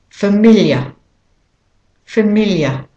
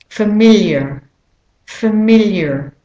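First: Familiar ending in a schwa, British or Australian style; British or Australian familiar, drop the final R; British or Australian accent. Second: Familiar with an American R sounded at the end; American pronunciation, familiar ending in "er"; American accent. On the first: Teacher modelling for learners, British or Australian accent on familiar. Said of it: "practicing a British or an Australian accent". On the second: Teacher modelling for learners, American accent on familiar. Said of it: "if you're saying it with an American accent". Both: Shown as a demonstration.

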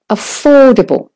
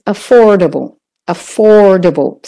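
First: "affordable" with OR louder and higher; stress on OR. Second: "affordable" in American English, r sounded; American "affordable" with stressed OR; American pronunciation. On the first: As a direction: make the or in "affordable" long and strong. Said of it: "make it louder and longer". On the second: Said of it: "If you're doing the American". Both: Shown as a demonstration.

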